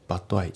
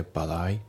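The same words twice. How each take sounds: First: バッドアイ with t and ai kept apart; バッドアイ unlinked; unlinked reading. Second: バッドアイ linked, t softened to a d; バッドアイ linked and voiced; linked pronunciation. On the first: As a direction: say バッドアイ as two stiff words. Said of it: "バッドアイじゃなくて". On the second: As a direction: run バッドアイ together like badai. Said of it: "TがDで濁りますね". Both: Shown as a demonstration.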